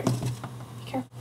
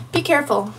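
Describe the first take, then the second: First: Soft, voiceless whisper; hushed warning under the breath. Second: Said in the usual way. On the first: Real, not acted. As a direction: whisper it like a secret caution. Warning repeated as whispered aside.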